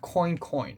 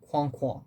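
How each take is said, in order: First: It is pronounced like the English word coin. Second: It is pronounced the French way, like kwan. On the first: The speaker calls it wrong. "It's not Coin Coin" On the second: The speaker calls it right. "It's Kwon Kwon, which is uh, how French people impersonate ducks"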